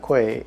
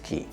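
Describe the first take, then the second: First: The word is not said like 'key'. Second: The word is said like 'key'. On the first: The speaker calls it wrong. "it's not Quay" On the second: The speaker calls it right. "it's pronounced K E Y"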